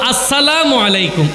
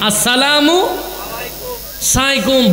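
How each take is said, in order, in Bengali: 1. শেষ শব্দটি পুরোপুরি alaikum হিসেবে বলা হয়। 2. শেষ শব্দটি জড়িয়ে saikum হয়ে যায়। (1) "অন্তত আসসালামু আলাইকুম" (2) "এগুলো দোয়া করার বদলে বিকৃত করতেছেন"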